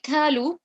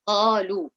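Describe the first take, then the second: First: The first consonant is a light k sound. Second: The first consonant is a heavy q sound. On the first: The speaker calls it wrong. "I have changed that to the letter kaf" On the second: The speaker calls it right. "So qalu will be right"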